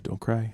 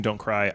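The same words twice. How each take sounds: First: Soft, hushed coaxing; whispering. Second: Said in the usual way. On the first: Pretend. Dealmaker unnerving the other side at the close, whispering. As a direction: murmur it barely aloud, like a secret. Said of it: "you just keep whispering". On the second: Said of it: "If they kept saying".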